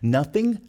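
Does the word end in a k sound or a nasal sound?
nasal. The word ends in a nasal sound without k. "A boca quer ir pro G, mas você não deixa"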